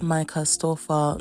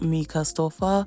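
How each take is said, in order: First: The first name begins with an 'eye' vowel. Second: The first name begins with an 'ee' vowel. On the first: The speaker calls it right. "her name is Micah Stoffer" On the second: The speaker calls it wrong. "not Mika Stoffer"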